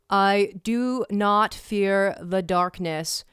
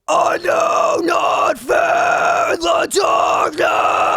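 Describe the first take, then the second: First: It is spoken in an ordinary speaking voice. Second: It is screamed with strong breath support.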